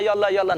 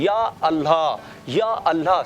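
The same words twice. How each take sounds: First: The phrase is said quickly, words run together. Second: The phrase is said slowly and calmly. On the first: The speaker calls it wrong. "इसको स्पीड से नहीं कहता, ये कहना है ... नहीं नहीं नहीं" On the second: The speaker calls it right. "आराम आराम से कहना है"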